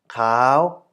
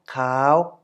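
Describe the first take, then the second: First: The syllable is said with a high tone. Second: The syllable is said with a high tone.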